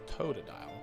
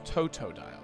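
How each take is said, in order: First: The second consonant is a D sound. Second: The second consonant is a T sound. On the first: The speaker calls it wrong. "I always think it's Tota dial. With a D" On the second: The speaker calls it right. "It's Toto dial"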